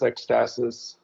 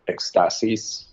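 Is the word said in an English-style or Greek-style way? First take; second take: English-style; Greek-style. First: The word is said in a plain English way. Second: The word is said in a Greek-sounding way. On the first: This is how the band says the name. "Yeah, ecstasis, ecstasis" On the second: This is the original Greek form of the word. "it's supposed to be like uh, ecstasis"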